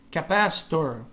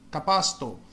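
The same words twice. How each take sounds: First: The final R is pronounced strongly. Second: The final R is almost silent. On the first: "o R no final ele fica muito forte" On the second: "no inglês britânico o R no final ele é quase que praticamente silencioso"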